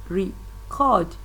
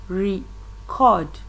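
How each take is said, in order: The two takes are said the same way.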